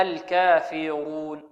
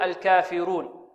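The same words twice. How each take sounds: First: "الكافرون" recited slowly with a full, heavy ر. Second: "الكافرون" with the ر thinned and light; wrongly light R. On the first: Shown as a demonstration. Teacher modelling tafkhim, slow "الكافرون" with emphatic ر. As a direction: thicken the ر in drawn-out "الكافرون". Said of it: "والراء مفخمة، هكذا". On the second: Retold or imitated. Teacher imitating some students' mistake, thinned ر in "الكافرون". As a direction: slowly say "الكافرون" with a thin, front-tongue ر. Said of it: "تعتبر مرققة".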